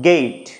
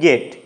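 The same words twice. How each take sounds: First: The vowel glides from e toward i. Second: The vowel is one steady sound. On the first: The speaker calls it right. "এর আসল উচ্চারণটা কীরকম হবে" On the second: The speaker calls it wrong. "আমরা সাধারণ ভাষায় কি বলি"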